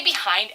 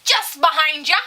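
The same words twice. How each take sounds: First: Said in the usual way. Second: Loud, high sing-out of "behind ya"; called-out warning. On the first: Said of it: "If we say". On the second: Retold or imitated. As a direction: call "behind ya" out brightly to passers-by. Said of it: "and she's like".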